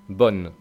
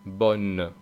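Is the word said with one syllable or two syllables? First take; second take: one syllable; two syllables. First: The final e is silent, giving one syllable. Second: The final e is sounded, giving two syllables. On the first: "Si no la pronunciamos, una sílaba" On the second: "Si la pronunciamos, bon. Dos sílabas"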